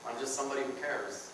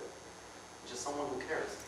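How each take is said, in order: First: Mock caring murmur. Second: Slower, softer near-whisper of mock care; slow fake-caring hush. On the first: Feigned concern. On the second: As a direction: drag it out softly like a fake friend. Feigned concern repeated.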